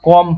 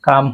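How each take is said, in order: First: The vowel is a rounded 'oh' sound. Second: The vowel is an open 'ah' sound. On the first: The speaker calls it wrong. "ও এর উচ্চারণ ওকার হওয়ার কথা ছিল, কিন্তু এখানে হয় নাই" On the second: The speaker calls it right. "ও এর উচ্চারণ আ হয়"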